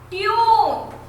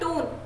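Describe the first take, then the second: First: The vowel is drawn out long. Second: The vowel is short and clipped. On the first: The speaker calls it right. "इसको भी लंबा बोलेंगे" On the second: The speaker calls it wrong. "हम ऐसे थोड़ी बोलेंगे"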